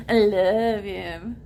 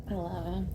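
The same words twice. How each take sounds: First: Slow, with "love" leaned on and lifted; stress on love. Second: Said in the usual way. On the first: Real, not acted. Telling the viewers she loves him, slow and emphatic. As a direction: draw out "love" like you mean it.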